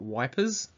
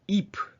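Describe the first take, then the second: First: The name begins with a W sound. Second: The name begins with a vowel sound. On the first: The speaker calls it wrong. "not Wipers, although the Allied troops did pronounce it Wipers" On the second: The speaker calls it right. "that's pronounced Ypres"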